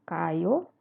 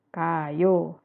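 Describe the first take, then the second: First: The pitch rises at the end. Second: The pitch falls at the end. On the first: It asks whether someone is going. "kalau nanya, dia naik" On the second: It states that someone is going. "Jadi turun"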